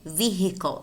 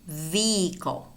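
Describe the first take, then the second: First: The H sound is clearly pronounced. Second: The H sound is left out. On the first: "you could say vehicle and pronounce the H" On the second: "in which the H is silent"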